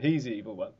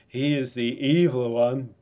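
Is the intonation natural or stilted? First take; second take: natural; stilted. First: It has a natural, conversational intonation. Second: It has a stilted, primitive-sounding intonation. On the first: The speaker calls it right. "Surely he's meant to say, no, it's not the doctor. He's the evil one" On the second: The speaker calls it wrong. "has the wrong intonation here"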